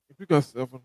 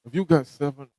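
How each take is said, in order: Both takes have the same delivery.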